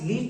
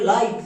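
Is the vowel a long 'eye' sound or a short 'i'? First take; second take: short i; long eye. First: The vowel is a short 'i' sound. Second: The vowel is the long 'eye' sound. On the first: The speaker calls it wrong. "লিট না" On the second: The speaker calls it right. "এর উচ্চারণটা হয়ে যাবে লাইট"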